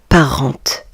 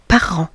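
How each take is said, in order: First: The final T sound is pronounced. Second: The final T sound is silent. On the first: The speaker calls it wrong. "On ne dit pas parente" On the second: The speaker calls it right. "le T et le S à la fin du mot parent ne se prononcent pas"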